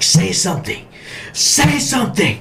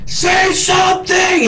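First: A doctor pushing a silent patient to answer; rising demand. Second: High, slow, loud mock scream; screamed demand. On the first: Retold or imitated. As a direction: pitch climbing, slower, pressing harder. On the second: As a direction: scream it at a patient who won't answer. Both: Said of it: "starts screaming".

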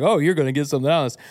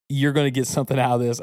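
First: Fast, mock-sceptical echo of his own line; self-mocking quote. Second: Said in the usual way. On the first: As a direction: rattle it off as if teasing yourself. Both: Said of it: "I know that sounds crazy to say".

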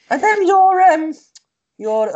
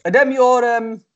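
First: Put-on lightly done Scouse accent, pitched up; a hint of Scouse, badly done; Matt's Scouse voice. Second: High, loud attempt at Scouse; a hammed-up Scouse accent; Matt's Scouse voice. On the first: Mimicking Matt's question in a shaky Scouse. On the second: Imitating Matt on the canal run in mock Scouse. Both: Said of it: "I'll do it in his voice".

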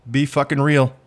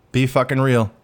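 No difference in how they are said.

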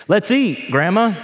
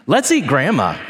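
First: EAT pitched high, then a separate rising "Grandma"; pause before Grandma. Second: "eat Grandma" run together, falling at the end; no pause before Grandma. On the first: Preacher inviting Grandma to a meal, pause before "Grandma". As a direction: say "Let's eat", break, then lift "Grandma" as an address. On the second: Preacher joking about eating Grandma, "eat Grandma" run together. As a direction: make "Grandma" the object of "eat", no break. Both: Shown as a demonstration. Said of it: "same words differently emphasized".

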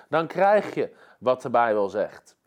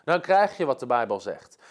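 First: Slow, "krijg" hit hard and falling; slow it down and land on "krijg"; stress on krijg. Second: "krijg" hit hard, falling to the end; stress on krijg. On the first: Preacher closes the story with his motto, slow and stressed. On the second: Preacher drives home his motto, stressing krijg. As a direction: land the promise on "krijg". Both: Shown as a demonstration.

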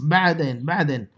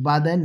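First: "بعدین" with a strong squeeze after the b; correct throaty ayn. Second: "بعدین" with a plain open a, like "baaden"; wrong, without ayn. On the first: Teacher correcting learners, throaty ayn in "بعدین". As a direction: catch the pharyngeal ayn in "بعدین". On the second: Teacher rejecting the mistake, plain a in "بعدین". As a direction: glide over the first syllable of "بعدین" with no throat sound. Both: Shown as a demonstration. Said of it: "بعدین نہیں".

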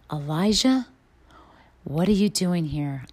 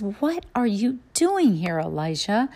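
First: Whispered, hushed call of God; still small voice. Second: A lightly raised, lofty voice of God calling out; hint of God's voice, high and questioning. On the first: Retold or imitated. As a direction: breathe it like a gentle whisper. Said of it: "The still small voice". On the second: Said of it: "God comes to him and he says".

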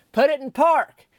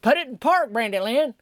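First: Loud high barked command; hollered order. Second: Higher, louder buddy echoing the order; Myron chiming in. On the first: Narrator hollers at woman reversing toward her husband, loud high command. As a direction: shout it like an order she can't ignore. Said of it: "when I hollered". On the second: Friend Myron joins in ordering her to stop, loud and high. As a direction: back up your friend with a high shout. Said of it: "Myron chimes in". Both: Retold or imitated.

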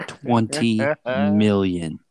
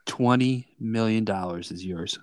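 First: "Twenty million" drawn out slowly and louder; slow, emphatic offer. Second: Said in the usual way. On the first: Shown as a demonstration. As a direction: stretch "Twenty million" like a game-show host. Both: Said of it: "I'm gonna up the ante".

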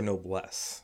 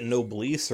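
First: Noblesse said as "no-BLESS"; "Noblesse" rhyming with "dress"; short-e pronunciation. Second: Noblesse said as "no-BLEESE"; "Noblesse" rhyming with "fleece"; long-ee pronunciation. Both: Shown as a demonstration. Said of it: "Is it Noblesse or Noblesse?".

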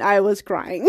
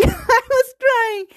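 First: Said in the usual way. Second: High, slow, teary wail with a laugh; half laugh, half sob, much higher; laughing through tears. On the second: Real, not acted.

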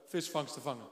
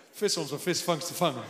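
First: Said in the usual way. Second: Careful retry. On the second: Shown as a demonstration. Preacher retrying the tongue twister for the church, carefully. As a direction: spell out "visvangst" deliberately. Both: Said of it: "Dat is een tongue twister".

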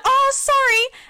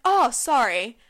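First: Very high, loud, hammed-up fake sorry; mock innocent apology. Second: Loud, offhand mock sorry; imitated casual apology. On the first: Imitating the queue-jumper who acted clueless, falsely innocent. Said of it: "acted like she had no idea". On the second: Queue-jumper turning to the person behind, casually apologetic. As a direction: toss off the queue-jumper's apology, pitch near usual. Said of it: "she turned around and she was like".

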